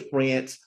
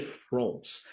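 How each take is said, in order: First: France rhyming with "dance", the American way; American pronunciation of France. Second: France drawn toward "Frohnce", rounded vowel; French pronunciation of France. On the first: Showing the host what was not said, American pronunciation of France. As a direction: say France with a flat American "a", as in "ants". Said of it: "I didn't say France". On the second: Correcting how the country is said, French pronunciation of France. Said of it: "that's how you say it". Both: Shown as a demonstration.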